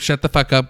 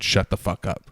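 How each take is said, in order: First: It sounds playful and excitedly amazed. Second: It sounds flat and seriously annoyed. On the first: That's unbelievable, tell me more. "not in the sense of like, oh, shut the fuck up, girl" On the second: Stop talking; I don't want to hear it. "Like, no, like just shut up. Like, don't say anything"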